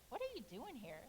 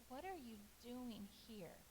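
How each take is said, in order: First: It sounds harsh and scolding. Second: It sounds gentle and caring.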